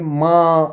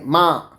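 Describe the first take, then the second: First: The vowel is said with nasalization. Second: The vowel is said plain, without nasalization. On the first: The speaker calls it right. "अंदर से जो आता है वो चंद्र बिंदु लगा के" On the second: The speaker calls it wrong. "ये माँ ऐसे नहीं है"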